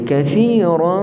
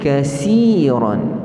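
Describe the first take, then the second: First: The middle consonant is a th sound. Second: The middle consonant is an s sound. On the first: The speaker calls it right. "Kita kathira" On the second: The speaker calls it wrong. "menyebut huruf tha ini dengan dia sebut sin"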